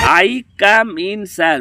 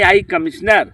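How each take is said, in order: First: The ending is said as three words, 'come in sir'. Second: The ending runs together like one word, 'commissioner'. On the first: The speaker calls it right. "ऐसे बोल जाता है" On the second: The speaker calls it wrong. "ऐसे ना बोल जा सर"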